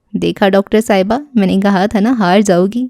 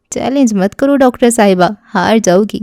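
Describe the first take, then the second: First: Smug teasing. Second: Eager challenge. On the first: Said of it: "اتراتے ہوئے مجھے چھیڑنا چاہا". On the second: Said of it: "بڑے جوش سے کہنے لگے". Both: A narrator's reading.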